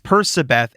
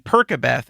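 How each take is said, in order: First: The C is said softly, like an S. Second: The C is said hard, like a K. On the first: The speaker calls it right. "It's Persebeth" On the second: The speaker calls it wrong. "using a hard C made you a bad person"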